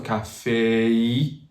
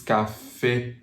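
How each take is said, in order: First: CAFÉ stretched into a final AY-ee; slow anglicized "café", sliding into EE; glide to E. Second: CAFÉ ending on a pure French É; French "café", final vowel held steady; no glide. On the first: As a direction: drag out the last vowel of "café" toward EE. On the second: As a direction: say "café" without sliding to EE. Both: Shown as a demonstration. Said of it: "Don't go to the E".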